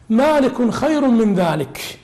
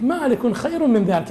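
First: مالك خير من ذلك drawn out slowly, each word weighed; slow recitation. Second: Said in the usual way. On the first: Acted. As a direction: recite it like the classical original. Recites text, then explains it. (تلاوة متأنية بطيئة)

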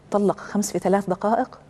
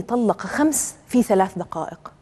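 First: Rising question tune ending on "دقائق"; echoed question. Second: Said in the usual way. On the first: Acted. Preacher voices listeners doubting the five divorces, echoed question rising on "دقائق". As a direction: repeat it back as a question, lifting "دقائق".

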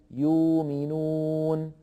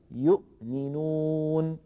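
First: يؤمنون with the hamza turned into a long u; Warsh reading. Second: يؤمنون slowly with a clear glottal stop after yu; with hamza. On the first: Teacher shows Warsh's long u in يؤمنون. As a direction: say يؤمنون as yuuminoon, no glottal stop. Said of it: "فيقول يؤمنون بدل أن يقول". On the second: Teacher gives the form with hamza, slowly. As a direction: say يؤمنون as yu'minoon, hamza kept. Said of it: "بدل أن يقول". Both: Shown as a demonstration.

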